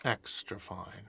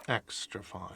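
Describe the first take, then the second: First: Quiet slow murmur. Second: Quiet murmur. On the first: Slow quiet tag on line. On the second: Quiet repeat of tag. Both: Acted.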